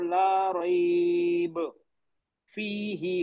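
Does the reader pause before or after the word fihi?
before. The pause comes before fihi, not after it. "फीही पे नहीं रुका फिर मैं।"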